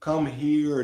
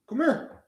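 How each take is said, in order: First: Said in the usual way. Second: Squeaky pet-talk come here; high-pitched dog voice. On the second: Real, not acted. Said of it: "a high-pitched voice".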